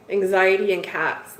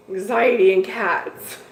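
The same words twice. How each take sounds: First: Said in the usual way. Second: Anxiety and cats said slower and louder, each word weighed; wry emphatic restatement; slow emphatic repeat. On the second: Real, not acted. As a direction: drive the summary home, deliberately.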